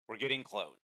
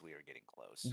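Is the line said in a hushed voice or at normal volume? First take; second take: normal volume; hushed. First: It is said at a normal, unhushed volume. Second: It is said in a quiet, hushed voice. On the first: The speaker calls it wrong. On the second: The speaker calls it right.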